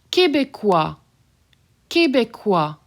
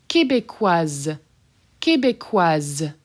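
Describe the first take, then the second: First: Québécois ending on wa, no S; masculine form. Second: Québécoise slow, ending in a buzzed Z. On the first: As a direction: stop Québécois on the vowel. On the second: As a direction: buzz the Z of Québécoise. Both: Shown as a demonstration. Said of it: "That S is done as a Z".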